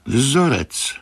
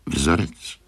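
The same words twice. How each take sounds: First: "Vzorec" croaked high, falling at the end; a high little croak on "Vzorec". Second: "Vzorec" with a rising, questioning end; questioning echo. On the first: Grenouille repeats the master's word, "Vzorec" in a high falling croak. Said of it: "zakrákoral Grenouille". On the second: Apprentice puzzles over the word, "Vzorec" rising as a question. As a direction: ask "Vzorec" tentatively, letting it rise. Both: A narrator's reading.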